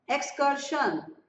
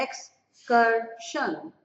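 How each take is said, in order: First: एक्सकर्शन spoken slowly, syllable by syllable; slow pronunciation demo. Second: एक्सकर्शन drawn out, each syllable held; very slow pronunciation demo. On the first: Teacher slowly modelling a word for students. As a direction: break एक्सकर्शन into its sounds for the class. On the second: Teacher modelling the word again even more slowly. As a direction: stretch out एक्सकर्शन so every sound is heard. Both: Shown as a demonstration. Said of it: "letters की sound आनी चाहिए".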